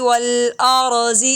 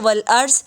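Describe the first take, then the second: First: The word ends with a short i vowel. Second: The word ends on a consonant, no vowel. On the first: The reciter carries on to the next word. "वरना तो मिलाकर पढ़ेंगे" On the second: The reciter stops here. "रुकेंगे तो वल अर्ज़"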